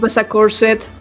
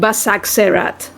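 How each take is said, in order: First: The name ends with the sounds "corset". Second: The name ends with the sounds "serat". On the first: The speaker calls it wrong. "he keeps mispronouncing mispronouncing it as Basacorset" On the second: The speaker calls it right. "the place is called Basak Serat"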